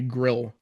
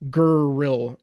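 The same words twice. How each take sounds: First: No extra vowel comes before the R. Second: An extra vowel is inserted before the R. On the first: "until you can just say grill" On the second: "add a vowel sound right before that R"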